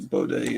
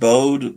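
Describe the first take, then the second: First: The name ends with an 'ay' sound. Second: The name ends with a plain 'o' sound. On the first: The speaker calls it right. "I think Baudet is the correct pronunciation" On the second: The speaker calls it wrong. "I used to pronounce it Bode"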